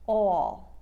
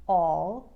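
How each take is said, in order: First: "all" with a narrow, drawn-out vowel; New York "all", long and loud. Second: Said in the usual way. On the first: Shown as a demonstration. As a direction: stretch "all" with a gliding aw. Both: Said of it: "All will sound like".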